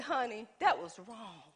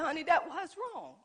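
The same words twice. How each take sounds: First: Sincere apology. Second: Laughing apology. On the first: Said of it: "and I said". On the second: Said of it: "we laughed about it". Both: Retold or imitated.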